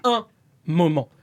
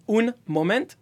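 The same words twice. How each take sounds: First: "un moment" with nasal vowels, final t silent; correct French nasal. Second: "un moment" with the n and t sounded; wrong pronunciation. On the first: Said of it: "It's saying un". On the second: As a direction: say "un moment" the English way, consonants voiced out. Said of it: "just not saying un moment". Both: Shown as a demonstration.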